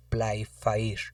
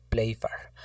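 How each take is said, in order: First: "Playfair" read letter by letter in Spanish, «plai-fa-ír»; Spanish spelling pronunciation. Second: "Playfair" said as two syllables, «pléi-far»; English-style pronunciation. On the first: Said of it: "leyéndolo en castellano lo tenemos que leer". ("Playfair" leído en castellano, «plai-fa-ír») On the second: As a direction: say "Playfair" with «plei» and a short «far». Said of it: "a veces se pronuncia como". ("Playfair" pronunciado «pléi-far») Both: Shown as a demonstration.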